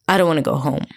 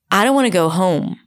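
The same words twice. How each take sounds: First: The melody starts rather low and keeps going down, in an Israeli pattern. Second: The melody moves up and down in a typical American English pattern. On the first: The speaker calls it wrong. "here's what happens when I apply this intonation onto English" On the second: The speaker calls it right. "I'm going to use the American intonation"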